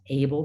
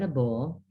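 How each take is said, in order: First: The vowel sounds as the spelling suggests. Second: The vowel is changed from the spelled sound. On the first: The speaker calls it wrong. "It is not able" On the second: The speaker calls it right. "but a bull"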